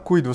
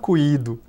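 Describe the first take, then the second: First: The stress falls on the 'u' vowel. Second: The stress falls on the 'i' vowel. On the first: The speaker calls it right. "Você fala cuido" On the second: The speaker calls it wrong. "você não fala cuído"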